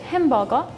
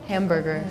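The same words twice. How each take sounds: First: It is said in a British accent, softer R. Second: It is said with a strong, hard American R. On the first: "if it was in like British" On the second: "it's a very like distinctly hard R"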